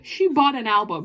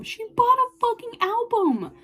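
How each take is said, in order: First: Said in the usual way. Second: High-pitched, emphatic disbelief; excited high exclamation; astonished squeal. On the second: Real, not acted. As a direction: say it high, scandalized and thrilled. Repeats news in amazement.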